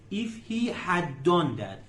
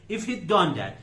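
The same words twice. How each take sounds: First: If he had done that, every word spelled out slowly; careful teacher model of the full form. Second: Said in the usual way. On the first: Shown as a demonstration. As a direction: unpack the contraction, each word separate. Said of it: "جملهٔ شرطی دومه".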